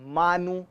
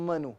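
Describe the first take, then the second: First: Both vowels are drawn out long. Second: Both vowels are kept very short. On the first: The speaker calls it wrong. "मोनू मानू नहीं है" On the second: The speaker calls it right. "बहुत छोटी timeline है"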